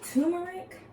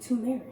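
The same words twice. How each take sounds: First: "turmeric" said as TUR-mer-ic, the r sounded in the first syllable, rising in question; "turmeric" with a clear TUR and a full r, asking; first pronunciation. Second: "turmeric" said as TOO-mer-ic, the first r dropped, falling at the end; "turmeric" starting TOO with no r, closing the question; other pronunciation. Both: Shown as a demonstration. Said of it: "So is it turmeric or is it turmeric?".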